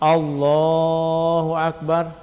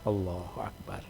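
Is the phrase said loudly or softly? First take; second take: loudly; softly. First: The phrase is said in a loud voice. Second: The phrase is said in a soft voice. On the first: It is the leader's audible call to the congregation. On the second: It is a follower heard only by himself. "dipelan lagi"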